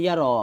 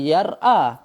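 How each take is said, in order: First: The word flows smoothly without any glottal catch. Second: A glottal catch separates the middle consonant and vowel. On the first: This is the form Arabs actually use. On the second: This is the original underlying form. "Tapi asalnya memang yar a"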